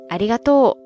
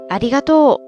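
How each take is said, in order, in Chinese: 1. 它用的是关西方言的音高模式。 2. 它用的是关西方言的音高模式。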